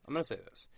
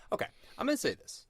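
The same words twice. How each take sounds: First: Said in the usual way. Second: Much higher and fast, bursting to get it out; eager announcement. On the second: Real, not acted. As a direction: blurt it out like a big reveal. Announcing a confession, repeated.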